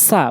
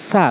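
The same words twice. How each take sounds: First: সা with tongue tip on teeth tip; Arabic সা. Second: Said in the usual way. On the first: Shown as a demonstration. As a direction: correct Quranic সা. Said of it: "বলতে হবে". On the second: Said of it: "আমরা বলি সা".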